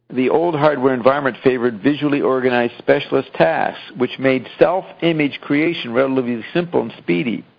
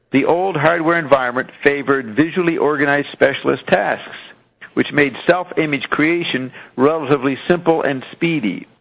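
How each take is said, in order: Both takes have the same delivery.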